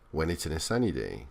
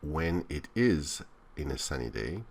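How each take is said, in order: First: The function words are reduced and run together. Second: Each function word is said fully and separately. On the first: The speaker calls it right. "She reduces all these function words... Very flowing" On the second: The speaker calls it wrong. "she doesn't say when it is in a sunny day"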